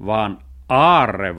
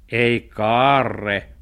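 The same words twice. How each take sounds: First: "aarre" punched loud and long; stress on aarre. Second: "kaarre" drawn out loudly; stress on kaarre. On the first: Cat gives the right word, "aarre" stressed loud and long. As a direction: stretch the correct word "aarre" loudly. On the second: Cat rejects the dog's wrong word, "kaarre" drawn out loudly. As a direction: stretch the mistaken word "kaarre" loud. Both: Acted.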